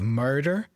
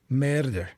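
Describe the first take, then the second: First: The first vowel sounds like 'mur'. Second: The first vowel sounds like 'meh'. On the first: "instead of murder" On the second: "It's almost like a meh, like murder"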